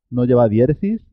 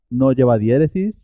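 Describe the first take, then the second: No difference in how they are said.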